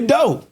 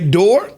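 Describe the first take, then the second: First: The word ends without any r sound. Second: The word ends with a clear r sound. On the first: This is how Southerners say it. "we say do. D O. So everything is cut" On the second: This is how other regions say it. "You say door"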